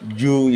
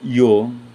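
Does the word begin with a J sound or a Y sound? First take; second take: J sound; Y sound. First: The word begins with a J-like sound. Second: The word begins with a plain Y sound. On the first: The speaker calls it right. "ang Y ay pronounced as J" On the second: The speaker calls it wrong. "hindi ganyan ang pag-pronounce diyan"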